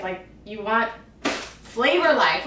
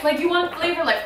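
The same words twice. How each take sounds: First: Said in the usual way. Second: "you" hit higher and louder, "flavor life" punched; emphatic repeat. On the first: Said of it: "repeats the phrase". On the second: Shown as a demonstration. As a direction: say "you want flavor life" again with more force. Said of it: "repeats the phrase louder".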